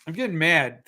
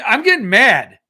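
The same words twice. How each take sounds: First: Said in the usual way. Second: Loud, high burst of annoyance; getting mad. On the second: Real, not acted.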